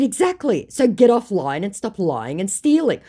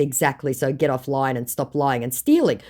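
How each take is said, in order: First: High, emphatic telling-off; firm scolding. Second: Said in the usual way. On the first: Retold or imitated. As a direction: order him off, raised and punchy. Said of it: "I said". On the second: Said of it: "And in response to".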